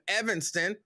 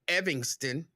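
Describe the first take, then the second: First: The name is said plainly, with no 'ing' sound. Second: The name has an 'ing' sound and an 'i' ending.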